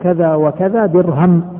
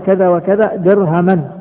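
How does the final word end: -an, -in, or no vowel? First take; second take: no vowel; -an. First: The last word ends with no final vowel. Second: The last word ends in the sound -an. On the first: The amount is only part of a dirham. "بالسكون يعني وقف عليها" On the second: The amount is a whole number of dirhams. "في النقض"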